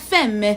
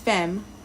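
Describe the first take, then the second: First: The final E is pronounced aloud. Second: The final E is not pronounced. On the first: The speaker calls it wrong. "I've been pronouncing the E" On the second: The speaker calls it right. "an E without an accent is usually silent"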